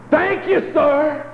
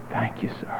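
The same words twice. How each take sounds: First: High shouted thank you; loud shout of thanks. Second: Hushed whispered thank you sir. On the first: Old man rearing back to thank God, high shout. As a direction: rear back and holler it to heaven. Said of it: "rear back and say". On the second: Preacher quietly echoing the thanks in a whisper. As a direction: breathe it out softly, almost to yourself. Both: Retold or imitated.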